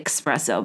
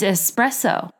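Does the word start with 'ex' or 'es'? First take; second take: ex; es. First: The word begins with an 'ex' sound. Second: The word begins with an 'es' sound. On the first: The speaker calls it wrong. "because it's just not the word" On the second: The speaker calls it right. "It's espresso"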